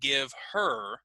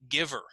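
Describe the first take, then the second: First: The two words are said separately and fully. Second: The two words run together as one unit. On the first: "instead of saying give her" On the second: "it's going to sound like this"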